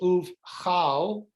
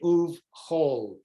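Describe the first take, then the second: First: The second word has an 'a' vowel. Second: The second word has an 'o' vowel. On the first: The speaker calls it wrong. "you would think it was" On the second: The speaker calls it right. "but it's actually"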